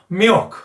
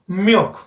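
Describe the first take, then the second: First: It has a nasal-sounding English L. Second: The same.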